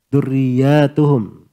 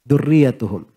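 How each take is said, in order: First: A vowel in the word is drawn out long. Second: The same vowel in the word is kept short. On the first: The word is read as a plural. "Dipanjangkan, dijama" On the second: The word is read as a singular. "bacanya dengan mufrad"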